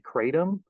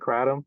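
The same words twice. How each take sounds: First: The word is said the common American way. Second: The word is said closer to the original way. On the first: This is how people in the United States usually say it. "In the United States, people tend to say kratom" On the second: This is closer to how it is said where it comes from. "the actual uh, pronunciation is more like kratom"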